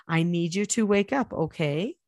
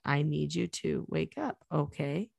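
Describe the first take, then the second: First: Said in the usual way. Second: Softer and slower, a gentle wake-up voice. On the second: Shown as a demonstration. Mother waking her sleepy child, soft and slow. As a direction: ease them awake gently. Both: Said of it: "I always say it like that".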